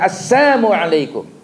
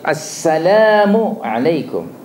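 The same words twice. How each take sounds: First: The first word drops the L sound. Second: The first word includes the L sound. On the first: A curse wishing death upon the listener. The speaker calls it wrong. "Lam alifnya tidak ada" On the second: A greeting wishing peace upon the listener. The speaker calls it right. "Salam yang benar ialah assalamu. Ada lam alif"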